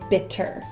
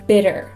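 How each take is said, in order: First: The middle T is a crisp, released T. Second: The middle T is a quick, light tap. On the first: "We don't really say bitter unless we want to be really clear" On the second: "And bitter is a flap T. ... most Americans will say bitter"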